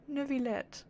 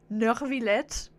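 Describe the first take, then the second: First: Neuvillette with no R, softly corrected. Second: Nervillette with an R after "Ne"; R put in. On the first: Shown as a demonstration. Streamer giving the correct name, Neuvillette without an R. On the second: Retold or imitated. Streamer making fun of Lyney's accent, Nervillette with an R. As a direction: mimic the mistaken R in "Nervillette". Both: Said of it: "there's no R in there".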